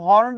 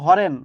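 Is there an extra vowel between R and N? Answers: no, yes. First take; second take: no; yes. First: The word is said without a vowel between r and n. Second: An extra vowel is inserted between r and n.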